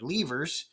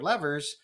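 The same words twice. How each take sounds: First: The word is said with a European pronunciation. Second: The word is said with an American pronunciation. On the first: "that's the way you pronounce the word over there" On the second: "normally here in Americas, I would say the four levers"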